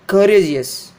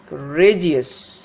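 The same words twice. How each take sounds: First: Courageous wrongly as CUR-uh-jus; stress on first syllable. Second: Courageous slowly as cuh-RAY-jus; stress on middle syllable. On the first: Teacher showing the mistake, courageous stressed on COUR. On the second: Teacher giving the right form, courageous stressed on RA. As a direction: stretch RA in courageous. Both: Shown as a demonstration. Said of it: "not courageous".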